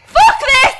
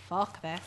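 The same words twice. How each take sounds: First: Loud frightened yell; panicked shout. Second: Muttered under breath. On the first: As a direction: shout it while fleeing. Fleeing the monster, shouting. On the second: Muttered after monster vanishes. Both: Real, not acted.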